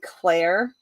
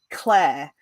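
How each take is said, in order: First: The name is said with an American accent. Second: The name is said with a British accent. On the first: The speaker calls it wrong. "it would sound strange coming out of my mouth, American" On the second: The speaker calls it right. "even as in my American accent, I would still say Claire"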